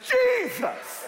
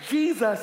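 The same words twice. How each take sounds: First: The word is said heavily, drawn out, dramatically. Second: The word is said lightly and casually. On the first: It is the name used in real trouble. The speaker calls it right. "you use the anointed pronunciation" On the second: It is the everyday cutesy name. The speaker calls it wrong. "It ain't Jesus"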